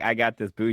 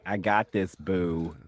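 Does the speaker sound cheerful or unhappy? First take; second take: cheerful; unhappy. First: It sounds cheerful and willing. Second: It sounds unhappy and reluctant.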